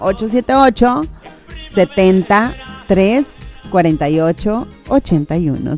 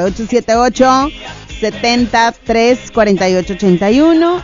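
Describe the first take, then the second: First: The number is read out slowly. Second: The number is read out fast.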